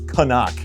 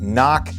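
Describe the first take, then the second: First: It is said as 'ca-nuck'. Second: It is said as 'knock'. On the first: The speaker calls it right. "It is Canuck" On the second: The speaker calls it wrong. "It is not Knock"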